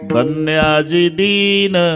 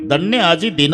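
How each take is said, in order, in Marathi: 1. शेवटच्या शब्दातील स्वर दीर्घ उच्चारलेला आहे. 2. शेवटच्या शब्दातील स्वर ह्रस्व ठेवलेला आहे. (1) "दीन लांबला का धन्य आजचा गरीब असा अर्थ होईल" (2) "दिन म्हणजे आजचा दिवस धन्य"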